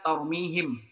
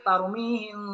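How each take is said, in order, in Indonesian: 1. M akhir dibaca penuh dan jelas. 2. M akhir disamarkan dengan dengung hidung. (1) "ini malah dibaca tarmihim" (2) "harusnya tarmihim bihijarah"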